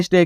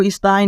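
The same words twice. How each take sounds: First: स्टे as "is-tay", ay vowel; correct reading. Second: स्थाई as "is-tai", eye vowel; letter-by-letter misreading. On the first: Teacher giving the right reading, स्टे as "is-tay". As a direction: say स्टे ending in ay. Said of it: "आपको क्या पढ़ना है?". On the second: Teacher showing what not to read, स्थाई as "is-tai". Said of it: "आपको स्थाई नहीं पढ़ना". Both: Shown as a demonstration.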